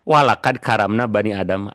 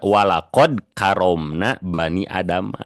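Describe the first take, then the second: First: The vowels in walakad karamna sound like plain 'a'. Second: The vowels in walakod karomna sound like darker 'o'. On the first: The speaker calls it wrong. "itu bacanya salah" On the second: The speaker calls it right. "Harusnya kan bacanya gini"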